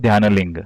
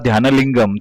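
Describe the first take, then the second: First: The word is said with the final syllable cut. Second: The word is said with its full final syllable. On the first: "ते म्हणतील" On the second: "जर तुम्ही म्हणाला"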